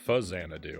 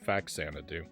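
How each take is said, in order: First: The first part has a Z sound. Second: The first part has no Z sound. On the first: "I think it's actually supposed to be more of a Z sound" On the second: "I said Faxanadu"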